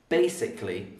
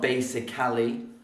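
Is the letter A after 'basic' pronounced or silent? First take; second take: silent; pronounced. First: The A after basic is silent and dropped. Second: The A after basic is pronounced as a syllable. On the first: The speaker calls it right. "So the A is silent because we don't say it" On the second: The speaker calls it wrong. "not basically"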